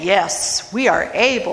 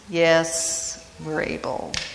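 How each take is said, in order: First: The words are said in a confident tone. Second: The words are said in an unsure tone. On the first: They are sure they can do it. "Was it confident" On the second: They realize they may have overcommitted. "or was it, "Oops"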